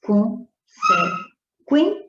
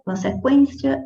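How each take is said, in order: First: Consequência very slow and high, QUÊN punched; syllable-by-syllable stress demo. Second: Said in the usual way. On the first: Shown as a demonstration. Teacher pointing out the penultimate syllable, stressed QUÊN in consequência. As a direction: break consequência into syllables, pausing after a strong QUÊN. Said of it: "também penúltima sílaba". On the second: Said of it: "quando você faz a leitura".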